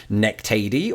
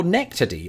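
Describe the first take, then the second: First: "nectady" with a long "ay", nek-TAY-dee; first guessed ending. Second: "nectady" with a short middle vowel, NEK-tuh-dee; second guessed ending. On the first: Wondering about the rest of the word, "nectady" said nek-TAY-dee. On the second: Offering the other option, "nectady" said NEK-tuh-dee. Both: Shown as a demonstration. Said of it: "should the emphasis be placed".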